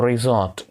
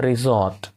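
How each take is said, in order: Both takes have the same delivery.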